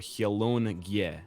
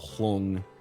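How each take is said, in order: First: The N and G are said as separate sounds. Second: The N and G merge into one sound. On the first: The speaker calls it right. "what we want is like the N and G pronounced separately" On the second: The speaker calls it wrong. "like the word long"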